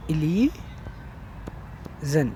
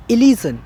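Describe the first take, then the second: First: "illusion" drawn out very slowly, softer, with a long break before the last syllable; softly stretched-out "illusion" for note-taking; syllable-by-syllable dictation. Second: Said in the usual way. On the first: Shown as a demonstration. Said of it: "please write down". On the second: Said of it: "Please make down".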